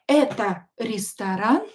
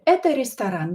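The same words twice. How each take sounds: First: It is said with questioning intonation. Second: It is said with plain statement intonation. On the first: The speaker asks whether the place is a restaurant. "Is this a restaurant?" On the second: The speaker states that the place is a restaurant. "Without a question mark, it would be just a statement"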